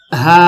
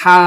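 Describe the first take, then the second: First: ہا with a simple light h, no breath noise; without breath. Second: ہا with a breathy, throaty h; aspirated, held ہا; with added breath. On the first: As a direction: sound ہا simply, keeping the rush of air out. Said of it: "بیچ میں سانس کی آواز نہیں ہوگی". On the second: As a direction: mix a little breath into the start of ہا. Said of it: "تھوڑی سی سانس بھی ملائی تھی". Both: Shown as a demonstration.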